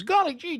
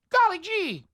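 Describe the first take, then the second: First: Put-on high gee-whiz kid voice; chirpy innocent kid exclamation; wholesome 1950s kid. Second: Put-on very high gee-whiz kid voice; wholesome 1950s kid. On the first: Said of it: "Your kid comes to you and says". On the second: Shown as a demonstration. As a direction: squeak it like an innocent kid.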